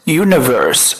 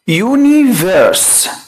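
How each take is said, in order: First: The vowel after the n is an open uh. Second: The vowel after the n is an ee sound. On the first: The speaker calls it right. "الاي لما تيجي بعد الان بفتحها مش بكسرها" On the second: The speaker calls it wrong. "ناس كتير قوي بتنطقها او حافظاها على انها"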